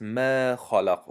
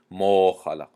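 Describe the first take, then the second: First: ما خلق with a thin, light a in ما. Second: ما خلق with a thick, rounded a like mo; heavy ma. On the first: Teacher shows the correct thin ما خلق to students. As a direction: say ما خلق with a clear open a, not rounded. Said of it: "ما خلق گفتیم". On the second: Teacher shows the wrong heavy ما خلق to students. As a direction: say ما خلق with a dark o vowel. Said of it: "نگفتیم ما خلق". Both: Shown as a demonstration.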